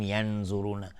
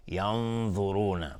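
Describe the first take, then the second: First: ینظرون with a plain z sound, not the heavy ض; wrong pronunciation. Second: ینظرون with a heavy emphatic ض and a thick nun, slowly; correct tajweed. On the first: Teacher showing the wrong way to say ینظرون. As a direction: say ینظرون with a light z instead of a thick ض. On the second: Teacher modelling the right ینظرون, slow and heavy. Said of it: "ین-، ینظرون". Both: Shown as a demonstration.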